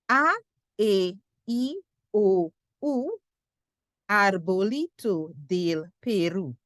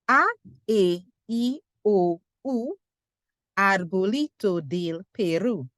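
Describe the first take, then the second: First: The vowels and phrase are said slowly. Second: The vowels and phrase are said quickly.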